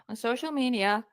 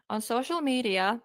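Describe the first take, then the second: No difference in how they are said.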